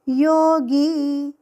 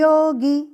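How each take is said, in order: First: The final vowel is said long. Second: The final vowel is said short. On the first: The speaker calls it right. "सही क्या? योगी" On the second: The speaker calls it wrong. "यह गलत उच्चार"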